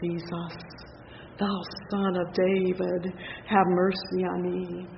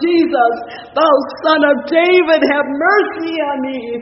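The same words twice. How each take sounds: First: It is said at a softer volume. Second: It is said at a louder volume.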